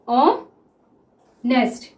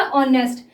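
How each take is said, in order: First: "honest" very slowly, long gap after "ऑ"; syllable by syllable. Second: Said in the usual way. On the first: Shown as a demonstration. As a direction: dictate "honest" as "ऑ", pause, "nest". Sounds out word while writing.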